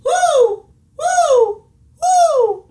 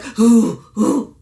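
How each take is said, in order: First: High, louder relaxed owl hoots. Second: Pushed from the throat, louder and tight; strained throaty hoo. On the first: Coach shows the relaxed correct hoo. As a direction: let the hoo float up high. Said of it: "Be relaxed". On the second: Coach demonstrates the wrong straining hoo. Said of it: "You see that straining?". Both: Shown as a demonstration.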